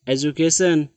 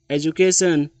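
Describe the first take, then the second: No difference in how they are said.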